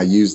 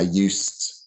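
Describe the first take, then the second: First: The word ends with a voiced z sound. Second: The word ends with a voiceless s sound. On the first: It is the past simple of use. "There it's used with a Z sound" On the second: It describes a former habit. "So there you can hear it's an S sound"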